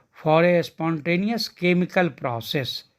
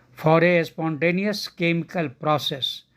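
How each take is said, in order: No difference in how they are said.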